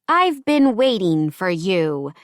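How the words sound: It is said in a deep, melodramatic voice.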